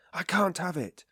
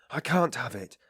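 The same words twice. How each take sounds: First: More exasperated repeat; irritable, pitched higher. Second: Irritable. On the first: Sick man refusing his mother's stay, higher irritated repeat. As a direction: snap it out a second time, higher. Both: A narrator's reading. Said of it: "he repeated irritably".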